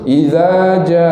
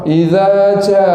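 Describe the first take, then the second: First: The j is made in the middle of the tongue. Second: The j is made too far forward, like ch. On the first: The speaker calls it right. "Dia nak yang tengah-tengah betul-betul tu" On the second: The speaker calls it wrong. "Dia bunyi gitu, bunyi ca"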